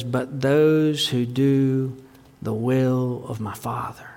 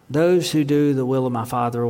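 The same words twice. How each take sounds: First: Slow, soft, breathless whisper of the words; hushed whisper. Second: Said in the usual way. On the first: Acted. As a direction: lean in and whisper it slowly, the last words voiceless. Jesus' words said hushed, then repeated.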